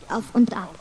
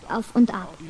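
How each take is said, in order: Both takes have the same delivery.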